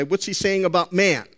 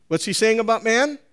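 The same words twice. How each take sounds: First: Said in the usual way. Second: Higher, with a rise on "man"; a pointed question rising on "man". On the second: Shown as a demonstration. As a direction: lift "man" to press the congregation.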